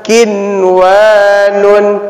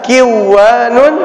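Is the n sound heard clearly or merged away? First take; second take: clear; merged. First: The n sound is heard clearly. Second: The n sound is merged away. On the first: The speaker calls it right. "dibaca jelas" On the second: The speaker calls it wrong. "tidak boleh kita baca"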